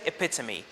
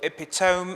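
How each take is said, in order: First: The final e is pronounced as a syllable. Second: The final e is silent, not a syllable. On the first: The speaker calls it right. "this word is one of these exceptions. So we say epitome" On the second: The speaker calls it wrong. "if you pronounce it as epitome or epitome, it's okay"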